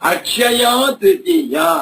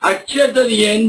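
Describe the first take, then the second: First: The phrase is said fully as two words. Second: The phrase is squeezed into one blended word. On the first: The speaker calls it right. "ಅಕ್ಷ ಅಲ್ಲ" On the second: The speaker calls it wrong. "ಇದನ್ನು ಕೆಲವರು ಅಕ್ಷತರಿಯೇ ಬಿಡ್ತಾರೆ"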